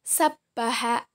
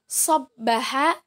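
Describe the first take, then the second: First: Sabbaha with a light "sa" first syllable; letter sin. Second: Sabbaha with a heavy "so" first syllable; letter sad. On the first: Teacher shows students the difference, sabbaha with light "sa". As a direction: say sabbaha slowly, open "sa" sound. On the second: Teacher shows students the difference, Sabbaha with heavy "so". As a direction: say Sabbaha slowly, rounded as "sobbaha". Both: Shown as a demonstration. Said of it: "Beda ya".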